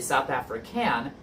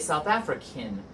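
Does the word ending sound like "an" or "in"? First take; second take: an; in. First: The last syllable has a full "an" vowel. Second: The last syllable sounds like "in". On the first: The speaker calls it wrong. "We don't say" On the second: The speaker calls it right. "the sound is more of an I N sound"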